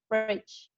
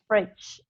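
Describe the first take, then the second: First: The word ends with an extra vowel sound. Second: The word ends on the consonant, no final vowel. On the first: The speaker calls it wrong. "It doesn't sound fridge" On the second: The speaker calls it right. "we don't pronounce the E at the end"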